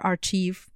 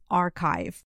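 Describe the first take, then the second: First: The ch is said like the ch in chair. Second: The ch is said like a k sound. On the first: The speaker calls it wrong. "It's never archive" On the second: The speaker calls it right. "It's always archive"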